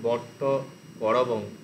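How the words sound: The word break falls after 'vatta'. The intended meaning does not come through. The speaker calls it wrong. "এরকম উচ্চারণ করে তাহলে অর্থটা ঠিকঠাক আসবে না"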